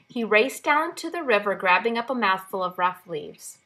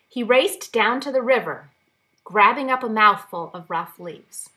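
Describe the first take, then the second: First: It runs on with no pause after river. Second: There is a long pause after river. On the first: The speaker calls it wrong. "First, without the comma" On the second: The speaker calls it right. "with an exaggerated pause there"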